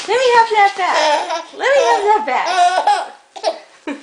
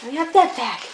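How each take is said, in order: First: Laughing. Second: Said in the usual way. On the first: Acted. Playful tug game.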